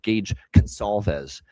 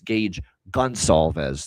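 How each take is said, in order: First: The surname begins with a hard K sound. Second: The surname begins with a hard G sound. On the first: The speaker calls it wrong. "I got in trouble early when I said Gage Consalves" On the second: The speaker calls it right. "G at the start of his last name"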